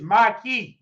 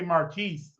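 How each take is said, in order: First: The name is said plainly, like my key. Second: The name is said the French way. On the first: "It's my key" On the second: "with an E because it's French"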